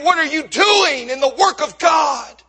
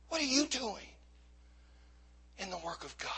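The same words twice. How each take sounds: First: Forceful preaching question, punching DOING; impassioned challenge. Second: Very soft, falling almost to a whisper; hushed challenge. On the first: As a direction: confront the congregation with a raised voice. Challenges congregation, then repeats it hushed. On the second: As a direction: let the question sink in quietly, pausing midway. Same question repeated hushed to congregation. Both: Real, not acted.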